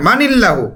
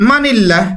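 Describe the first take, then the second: First: মানিল্লাহু with the final u sounded; corrected reading; correct ending. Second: মানিল্লাহ said without the final vowel; clipped ending, the wrong take. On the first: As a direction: finish মানিল্লাহু on a clear u. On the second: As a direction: stop short on মানিল্লাহ. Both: Shown as a demonstration. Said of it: "না মানিল্লাহু".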